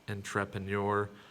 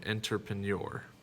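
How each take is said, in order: Both takes have the same delivery.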